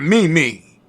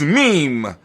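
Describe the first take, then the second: First: The word is said as two syllables, 'mee-mee'. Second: The word is said as one syllable, 'meem'. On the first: The speaker calls it wrong. "not Mimi" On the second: The speaker calls it right. "M E M E is meme"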